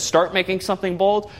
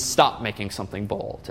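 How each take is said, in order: First: Said in the usual way. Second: "Stop" set against "Start", lower and softer; stress on Stop. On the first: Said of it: "So this says". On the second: Shown as a demonstration. Teacher contrasting the closing tag with the opening one, stressing "Stop". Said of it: "This means".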